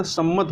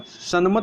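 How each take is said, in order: First: सम्मत with a doubled m; correct form. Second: सन्मत with an n before the m; wrong form. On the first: Teacher corrects for learners, सम्मत with double m. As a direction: say सम्मत holding one long m, no n. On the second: Teacher shows learners the error, सन्मत with n-m. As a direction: say सन्मत with separate n and m sounds. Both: Shown as a demonstration. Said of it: "सम्मत होता है".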